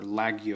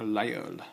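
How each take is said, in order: First: Laguiole said with a hard g; anglicized pronunciation. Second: Laguiole said the French way, with a silent g; French pronunciation. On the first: Reviewer giving the common version, Laguiole with a hard g. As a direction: butcher Laguiole as "lag-ee-ole". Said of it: "A lot of people say Laguiole". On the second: Reviewer naming a French knife, Laguiole with the g silent. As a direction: say Laguiole as "lah-yole", French style. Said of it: "butchery of the actual pronunciation". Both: Shown as a demonstration.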